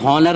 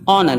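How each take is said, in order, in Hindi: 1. यह शब्द बोले जाने वाले 'h' से शुरू होता है। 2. यह शब्द स्वर से शुरू होता है, इसमें 'h' नहीं है। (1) "इसे हॉनर नहीं पढ़ेंगे" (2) "बल्कि ऑनर"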